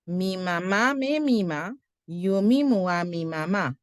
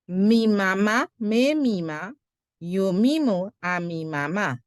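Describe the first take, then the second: The two takes are said the same way.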